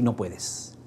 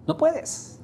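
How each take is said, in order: First: Said in the usual way. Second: No puedes swept much higher with a questioning rise; rising No puedes. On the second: Shown as a demonstration. The speaker repeating to the audience, rising sharply. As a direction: lift puedes up high at the end.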